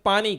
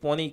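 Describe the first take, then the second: First: The first vowel is an open 'a' sound. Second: The first vowel is a rounded 'o' sound. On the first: This is how it is said in some places. "ક્યાંક પાણી કહે" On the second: This is how it is said in many other places. "ઘણી જગ્યાએ પોની કહે"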